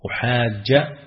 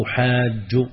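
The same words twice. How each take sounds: First: "أحاج" said as uhajja, ending in a short a; fatha ending. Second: "أحاج" said as uhajju, ending in a short u; damma ending. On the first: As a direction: end "أحاج" on an open a. ("أحاجَّ" بالفتح) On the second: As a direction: end "أحاج" on a rounded u. ("أحاجُّ" بالضم) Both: Shown as a demonstration. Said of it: "فتحا وضما".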